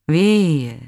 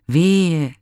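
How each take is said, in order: First: „Wehe!“ as a distant echo, higher and louder. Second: Higher, louder lamenting wail; woeful cry. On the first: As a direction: throw the cry back like an echo. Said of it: "mit nachhallender Stimme". („Wehe!“ als ferner, nachhallender Widerhall) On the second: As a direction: wail out your grief. (klagender Ausruf „Wehe!“, höher und lauter) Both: Acted.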